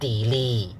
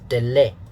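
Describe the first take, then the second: First: The first vowel is a long E sound. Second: The first vowel is short, not a long E. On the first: The speaker calls it wrong. "use the long E is wrong" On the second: The speaker calls it right. "So it's delay"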